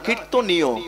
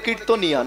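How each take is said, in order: First: The word ends with an 'yo' sound. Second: The word ends with an 'ya' sound. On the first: The speaker calls it right. "না" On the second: The speaker calls it wrong. "অনেকে ভুল করে বলে"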